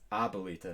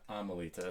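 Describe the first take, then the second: First: The word has a b sound after the first vowel. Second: The word has an m sound after the first vowel. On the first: The speaker calls it right. "I just learned that it's Abuelita" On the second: The speaker calls it wrong. "not Amelita"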